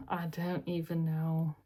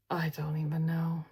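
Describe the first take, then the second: First: Said in the usual way. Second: Airy unvoiced half-laugh; whispered. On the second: Real, not acted. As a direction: give up with a breathy laugh.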